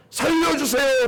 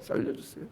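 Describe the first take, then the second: First: Cry for help. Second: Breathless whispered begging; whispered plea. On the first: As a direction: beg God to save you. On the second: Preacher showing the king's prayer as a faint whisper. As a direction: whisper it like a dying man. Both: Shown as a demonstration. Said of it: "이렇게".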